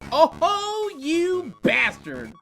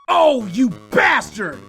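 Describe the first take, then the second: First: It sounds admiring and fond. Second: It sounds angry and contemptuous.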